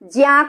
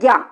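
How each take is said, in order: First: It joins a j sound with a nasal ny. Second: It uses the changed everyday Hindi sound. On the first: This is the pure, original pronunciation. "शुद्ध शुद्ध जो उच्चारण होता है वो ज्या का होता है" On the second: This is the modified, everyday Hindi pronunciation. "परिवर्तित उच्चारण है वो है ज्ञा"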